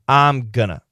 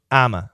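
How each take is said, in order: First: Going to is reduced to gonna. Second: The phrase shrinks to two short syllables. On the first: "I'm going to becomes I'm gonna" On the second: "there's one more reduction that we also use"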